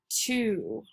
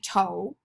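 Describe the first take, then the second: First: The word ends with a long 'oo' vowel. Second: The word ends with a long 'oh' vowel. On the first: The speaker calls it right. "it's the long U sound" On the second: The speaker calls it wrong. "it should be a long O"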